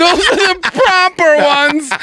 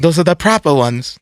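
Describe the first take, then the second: First: High, laughing put-on British voice; laughing mock British accent. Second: Mock British accent. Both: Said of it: "British accent".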